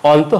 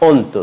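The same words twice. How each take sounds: First: অন্ত begun with open "aw"; wrong pronunciation. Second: অন্ত begun with rounded "o"; closed first vowel in অন্ত; correct pronunciation. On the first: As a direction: say অন্ত as "awn-to". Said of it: "অন্ত হবে না". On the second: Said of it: "হবে". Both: Shown as a demonstration.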